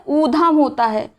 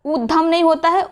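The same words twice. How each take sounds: First: ऊधम slow, with long oo; correct pronunciation. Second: ऊधम with a quick, short first vowel; wrong pronunciation. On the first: Teacher correcting the word, slow long vowel. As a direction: draw out the first vowel of ऊधम. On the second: Teacher quoting the mistake, short-vowel form. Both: Shown as a demonstration.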